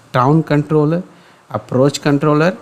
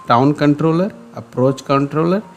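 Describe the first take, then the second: No difference in how they are said.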